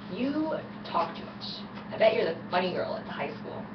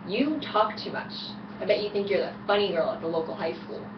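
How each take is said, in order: First: It is said more quietly. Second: It is said more loudly.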